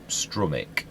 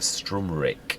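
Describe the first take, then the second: First: The word has no extra R sound. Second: The word has an extra R sound. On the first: The speaker calls it right. "So it's a Strumic" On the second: The speaker calls it wrong. "I call it a Strumric. I had another R somehow"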